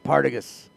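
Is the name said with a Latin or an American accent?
American. It is said with an American accent.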